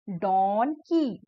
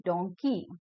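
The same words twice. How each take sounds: First: Slow donkey, split as don, kee; broken into syllables. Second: donkey lower and joined up; syllables blended. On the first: Teacher breaking a word for children, slow syllable-by-syllable donkey. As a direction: stretch donkey into two separate beats. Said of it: "break करके बोला गया है". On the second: Teacher putting the word back together, lower blended donkey. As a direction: say donkey as one word, no gap. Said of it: "fast बोलते जाएंगे". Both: Shown as a demonstration.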